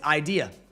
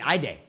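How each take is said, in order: First: The middle part sounds like 'dee'. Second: The middle part sounds like 'day'. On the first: The speaker calls it right. "Now I know it's idea" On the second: The speaker calls it wrong. "I say day for some reason"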